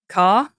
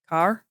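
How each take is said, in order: First: It is said in an Australian accent. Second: It is said in an American accent. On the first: "Maybe if I I say car" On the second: "if I'm talking to an American, I might say car"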